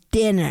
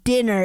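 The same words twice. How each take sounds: First: The word ends with an open ah sound. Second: The word ends with an er sound.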